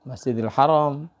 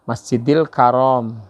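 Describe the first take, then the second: First: The second word starts with an h sound. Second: The second word starts with a k sound. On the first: The speaker calls it right. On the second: The speaker calls it wrong.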